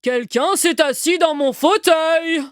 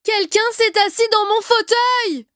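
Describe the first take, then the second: First: It is said in a big, deep voice. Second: It is said in a medium voice.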